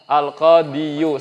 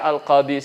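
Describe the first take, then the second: First: The word ends with a pronounced final 'yu' syllable. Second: The word ends on a long 'i' with nothing after. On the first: This full ending is too heavy to say. The speaker calls it wrong. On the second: The ending is dropped to make it lighter. The speaker calls it right. "makanya dia al-qadi saja diberikan keringanan"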